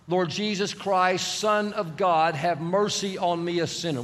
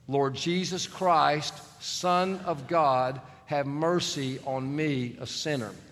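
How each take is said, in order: First: The prayer is said at a normal pace. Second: The prayer is said slowly and deliberately.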